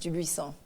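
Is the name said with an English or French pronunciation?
French. The name is said with a French pronunciation. "it is a French last name, and it's pronounced"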